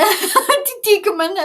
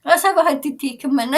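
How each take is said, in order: First: Repeats it through a real laugh, louder and higher. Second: Said in the usual way. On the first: Real, not acted. Laughing at herself to her live viewers. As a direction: lets the laugh spill into the words.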